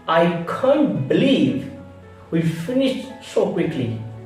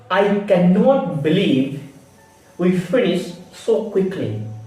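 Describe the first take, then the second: First: 'Cannot' is contracted to 'can't'. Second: 'Cannot' is said in full. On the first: The speaker calls it right. "we can pronunciation that is I can't" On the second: The speaker calls it wrong. "we don't pronunciation I cannot"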